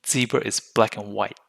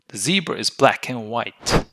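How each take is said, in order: First: The final T of white is barely pronounced. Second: The final T of white is clearly pronounced.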